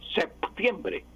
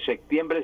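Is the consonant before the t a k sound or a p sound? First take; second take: p sound; k sound. First: A p sound comes before the t. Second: A k sound comes before the t. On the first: The speaker calls it right. "pronunciar correctamente, séptimo y septiembre" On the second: The speaker calls it wrong. "como si fuera de secta, me queda incorrectamente"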